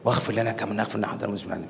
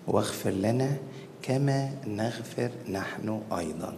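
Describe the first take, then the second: First: The phrase is rushed and slurred together. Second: The phrase is said slowly and clearly. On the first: The words are recited without thinking. The speaker calls it wrong. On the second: The words are said with attention to their meaning. The speaker calls it right.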